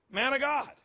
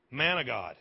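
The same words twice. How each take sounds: First: High-pitched, held up at the end; pointed repeat. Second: Said in the usual way. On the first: Real, not acted. Preacher repeats Jonah's title to the church, pointed repeat. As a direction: repeat the title pitched well up, leaving it hanging.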